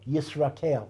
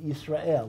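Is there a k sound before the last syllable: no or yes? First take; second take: yes; no. First: The last syllable is said as kel, with k. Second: The last syllable is said as el, no k. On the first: The divine element is treated as a name of God. The speaker calls it wrong. "we don't say Yisrakel" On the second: The divine element is not pronounced as a name of God. The speaker calls it right. "just as we pronounce, right, Yisrael"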